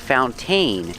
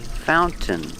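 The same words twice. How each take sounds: First: The second syllable is stressed. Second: The second syllable is unstressed. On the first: The speaker calls it wrong. "don't say fountain. It's not stressed" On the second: The speaker calls it right. "The second syllable is not stressed, so we say fountain"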